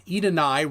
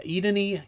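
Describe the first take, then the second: First: Edenai ending in a "nigh" sound; Edenai, last syllable rhyming with "eye"; name variant. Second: Edeni ending in a "nee" sound; Edeni, last syllable rhyming with "knee"; name variant. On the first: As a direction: say Edenai with a final long "i". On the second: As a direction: say Edeni with a final "ee". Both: Real, not acted. Tries two readings of a name.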